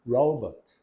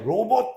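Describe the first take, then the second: First: The word is said with English pronunciation. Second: The word is said with Korean loanword pronunciation. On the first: The speaker calls it right. "robot 이렇게 가야 돼" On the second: The speaker calls it wrong. "촌스럽게 또 로봇 이러면 안 됩니다"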